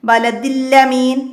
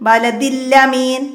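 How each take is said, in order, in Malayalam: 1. ഇരട്ട ല് നേരെ amin-ലേക്ക് ചേരുന്നു. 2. ഇരട്ട ല് നേരെ amin-ലേക്ക് ചേരുന്നു.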